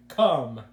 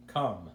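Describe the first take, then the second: First: "Come" said loud, drawn out and suggestive. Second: Said in the usual way. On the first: Retold or imitated. Mimicking how Arnold's "Come" sounded, loud and suggestive. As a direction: lean hard on "Come", loud and innuendo-laden. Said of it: "it sounded like". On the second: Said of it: "instead of".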